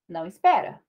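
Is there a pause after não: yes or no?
no. There is no pause after não.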